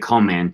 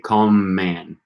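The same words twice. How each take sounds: First: The M sound between the words is short. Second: The M sound between the words is held long. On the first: The speaker calls it wrong. "you wouldn't say" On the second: The speaker calls it right. "you would say"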